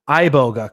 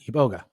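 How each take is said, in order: First: The word begins with an 'eye' sound. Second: The word begins with an 'ee' sound. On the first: The speaker calls it wrong. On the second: The speaker calls it right.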